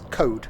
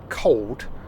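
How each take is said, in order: First: The L sound is dropped entirely. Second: The L sound is clearly pronounced. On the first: The speaker calls it wrong. "can't pronounce their L's" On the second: The speaker calls it right. "instead of saying cold"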